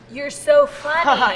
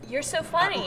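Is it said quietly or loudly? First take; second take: loudly; quietly. First: It is said at a louder volume. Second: It is said at a quieter volume.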